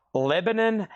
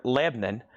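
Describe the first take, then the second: First: "Lebanon" with three full syllables, Leb-a-non; "Lebanon" spoken out in full, Leb-a-non; standard pronunciation. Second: "Lebanon" squeezed to two syllables, Leb-nun; "Lebanon" clipped short, middle vowel dropped; local pronunciation. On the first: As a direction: say "Lebanon" the textbook way, every syllable clear. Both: Shown as a demonstration. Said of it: "or as we say it here".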